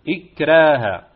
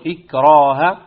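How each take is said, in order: First: The r sound is light and thin. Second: The r sound is heavy and full. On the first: The speaker calls it right. "وإنما إكراها" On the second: The speaker calls it wrong. "لا نقول إكراها"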